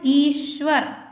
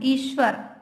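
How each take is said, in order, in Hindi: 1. श ध्वनि के साथ पूरा स्वर आता है। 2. श ध्वनि बिना स्वर के जल्दी बोली जाती है। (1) "हम पूरा सा का उच्चारण करते हैं" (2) "जल्दी से बोलना"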